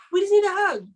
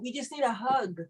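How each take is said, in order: First: "need" punched higher and louder; emphatic repeat. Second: Said in the usual way. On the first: Shown as a demonstration. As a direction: hit "need" hard.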